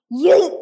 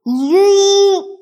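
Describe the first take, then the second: First: Shrill high shouted yeet; yelled yeet. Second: High, loud shouted yeet. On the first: Author yelling yeet to annoy the others. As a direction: yell yeet at the top of your voice. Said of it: "From yelling now". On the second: Author yelling yeet to annoy the narrator. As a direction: blast the yeet out to annoy everyone. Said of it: "Ugh, you're so annoying". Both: Acted.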